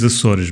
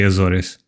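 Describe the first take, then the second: First: It is said the Portuguese way. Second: It is said the American way. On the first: "the correct pronunciation is Azores" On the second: "I know you guys say Azores"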